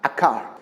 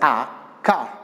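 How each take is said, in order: First: The article runs smoothly into the next word. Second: The two words are said separately with a break. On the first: The speaker calls it right. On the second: The speaker calls it wrong.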